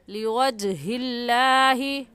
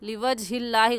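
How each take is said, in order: First: The j sound has an echoing bounce. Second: The j sound has no echoing bounce. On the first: The speaker calls it right. "आवाज़ आएगी" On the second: The speaker calls it wrong. "गलत है"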